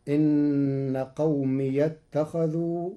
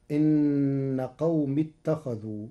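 First: قومي with an open ya joined on, qawmiya; قومي بفتح الياء وصلا. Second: Said in the usual way. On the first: Shown as a demonstration. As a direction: give قومي a clear open ya, slowly. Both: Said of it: "بفتح ياء الإضافة وصلا".

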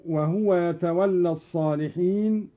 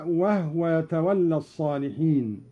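First: Said in the usual way. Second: وهو said wahwa, ha without vowel; silent ha in وهو. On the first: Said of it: "بإسكان الهاء". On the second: Shown as a demonstration. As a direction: run وهو together as wahwa. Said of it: "هكذا".

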